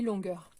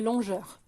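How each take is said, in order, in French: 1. La consonne du milieu est un son 'g' dur. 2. La consonne du milieu est un son 'zh' doux. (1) "ça se lit longueur" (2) "si vous oubliez ce U là, ça fait longeur"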